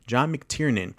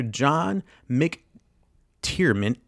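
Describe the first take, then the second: First: "McTiernan" said cleanly, ending in "nin"; corrected name. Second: "McTiernan" drawn out and slurred to "McTiermen"; fumbled name. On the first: Host correcting director's name, "McTiernan" with clear n. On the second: Host fumbling director's name, "McTiernan" said as "McTiermen". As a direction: stumble slowly into "McTiernan" with an m for the n. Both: Real, not acted. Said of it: "I already fucked Tiernan".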